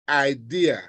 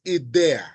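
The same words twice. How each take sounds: First: It is pronounced like the English word. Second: It is pronounced like the Spanish word. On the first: The speaker calls it wrong. "Don't go there and say idea" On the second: The speaker calls it right. "It's idea"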